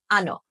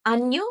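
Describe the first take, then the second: First: Ano with a simple English-like n; plain Spanish n. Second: Año with an ny sound as in canyon; Spanish ñ. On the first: Spanish teacher contrasting two words, plain n in ano. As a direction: say ano as AH-no, no y glide. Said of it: "The N without the squiggly sounds like this". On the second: Spanish teacher contrasting two words, ñ as ny in año. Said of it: "The N with the squiggly on top sounds like this". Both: Shown as a demonstration.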